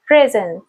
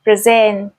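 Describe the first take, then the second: First: Noun-style "present", falling away after PRE-; stress on first syllable. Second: "present" as pre-SENT, stressed at the end; verb-style "present", weight on -SENT; stress on second syllable. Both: Shown as a demonstration. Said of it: "can be pronounced in different ways".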